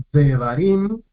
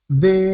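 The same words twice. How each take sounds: First: Said in the usual way. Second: "devarim" partido en de... va... rim, con pausas; separado en sílabas. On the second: Shown as a demonstration. ("devarim" lento, sílaba por sílaba) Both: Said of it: "tres sílabas".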